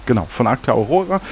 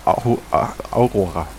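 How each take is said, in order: First: Said in the usual way. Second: Stumbled name. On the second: Real, not acted.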